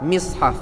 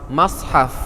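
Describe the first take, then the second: First: The first vowel is an i sound. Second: The first vowel is an a sound. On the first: "mim sad mati di bawah mis" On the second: "mim sad mati di atas mas"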